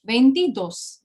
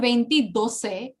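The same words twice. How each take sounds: First: "Veintidós" ending in a closed "dos"; correct ending. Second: "veintidoce" ending in "do-seh"; mistaken extra syllable. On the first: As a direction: say "Veintidós" with no vowel after the final s. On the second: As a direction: add an "eh" after the s in "veintidoce". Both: Shown as a demonstration. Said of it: "It is not veintidoce".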